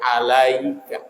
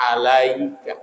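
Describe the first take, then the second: First: The 'ya' sound is clearly voiced and held. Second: The 'ya' sound is clearly voiced and held.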